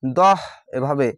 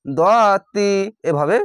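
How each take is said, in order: First: দহ with the final sound changed to h; stop form. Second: দতি with the t kept and an i added; continuing form. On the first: Teacher showing students how to stop on the word: দহ. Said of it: "থামতে গেলেই পরিবর্তন করে হা পড়তে হবে". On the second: Teacher showing students the form without a stop: দতি. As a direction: say দতি keeping the t as when reading on. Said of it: "আর যদি না থামেন". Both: Shown as a demonstration.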